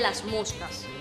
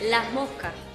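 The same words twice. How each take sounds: First: The s sounds are full hissing s sounds. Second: The s sounds are breathy h-like aspirations.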